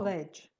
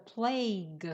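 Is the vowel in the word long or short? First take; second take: short; long. First: The vowel is short, like in 'pledge'. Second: The vowel is long, like in 'vague'. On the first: The speaker calls it wrong. "pronounced it wrong. It's not pledge" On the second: The speaker calls it right. "The plague"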